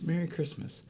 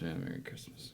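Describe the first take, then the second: First: It is said warmly, with a smile. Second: It is mumbled without real feeling.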